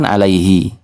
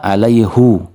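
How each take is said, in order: First: The final vowel is an 'ee' sound. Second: The final vowel is an 'oo' sound. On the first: This follows the non-Hijaz reading. "kalau menurut yang selain Hijaz kan alaihi" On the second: This follows the Hijaz dialect reading. "sesuai dengan qiraahnya Hijaz"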